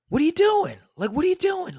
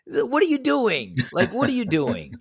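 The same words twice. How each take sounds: First: High-pitched angry yell at her; mock the guy snapping at her; indignant yell over concert noise; retold yelling. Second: Put-on high, whiny childish squeal; a hint of a whining kid; childish mock whine. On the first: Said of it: "he kinda started yelling at her". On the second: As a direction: mimic him like a squabbling child. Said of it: "It's just like children".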